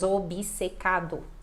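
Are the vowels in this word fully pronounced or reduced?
full. Every letter and vowel is pronounced clearly. This is how it sounds in Brazil. "A gente vai falar bem todas as letras"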